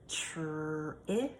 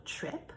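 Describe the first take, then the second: First: Whispered. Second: Said in the usual way. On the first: Shown as a demonstration. Teacher whispering trip before saying it aloud. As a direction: trip whispered under the breath.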